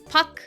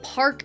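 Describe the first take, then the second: First: The name is said with no R sound. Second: The name is said with an R sound. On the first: The speaker calls it right. "it's Puck. ... the R is kind of implied" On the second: The speaker calls it wrong. "It's not like Park"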